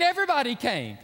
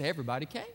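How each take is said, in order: First: "everybody" hit high and loud; emphatic EVERYBODY. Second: Said in the usual way. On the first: Acted. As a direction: stress on "everybody", pitch raised. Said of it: "but, I mean". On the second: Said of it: "but, I mean, everybody came".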